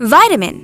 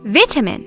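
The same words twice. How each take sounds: First: It is said with an American accent. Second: It is said with a British accent.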